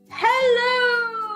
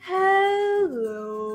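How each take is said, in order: First: It is said very loudly. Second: It is said very slowly.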